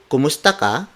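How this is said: The pitch rises at the end.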